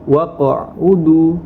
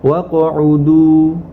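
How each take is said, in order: First: The voice stops briefly on the qaf. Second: The qaf bounces straight on with no stop. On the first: The speaker calls it wrong. "bukan waqa'udu, waqa'udu itu berhenti" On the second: The speaker calls it right. "kita pantulkan tanpa berhenti membacanya"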